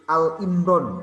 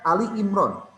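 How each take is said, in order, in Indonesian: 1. Kata pertama memiliki satu suku kata, tanpa i di akhir. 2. Kata pertama memiliki dua suku kata, berakhir dengan i. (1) "itu salah besar itu" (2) "Yang ada Ali Imran"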